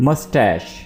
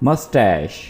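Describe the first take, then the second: Both takes have the same delivery.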